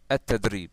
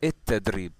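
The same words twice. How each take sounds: First: The article is said as al, Standard Arabic style. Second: The article is said as el, Egyptian style. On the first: "the official" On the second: "the Egyptian accent"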